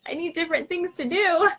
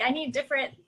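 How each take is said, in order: First: Higher, louder, exasperated plea; pushing it up in mock despair; exasperated rise. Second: Said in the usual way. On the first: Retold frustration with symptoms.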